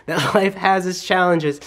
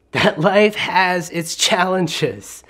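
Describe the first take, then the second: First: Said in the usual way. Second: Slow and deliberate, every word weighed; slow, weighty statement. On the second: Shown as a demonstration. Preacher stating the point slowly to the congregation. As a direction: let each word land slowly.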